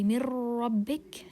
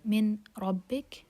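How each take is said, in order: First: The n merges into r with a nasal hum. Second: The n is pronounced clearly before the r. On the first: "because it's idgham without ghunna. That's wrong. We don't add ghunna" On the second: "Ra is among the merging letters. So Min Rabbik is wrong"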